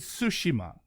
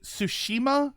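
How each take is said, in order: First: Tsushima stressed on the opening TSU; Tsushima as TSU-shi-ma, questioning; first-syllable stress. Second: Tsushima stressed on the middle SHI; Tsushima as tsu-SHI-ma, questioning; middle-syllable stress. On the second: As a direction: lean on the second syllable of Tsushima. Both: Shown as a demonstration. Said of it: "putting the stress on the first syllable".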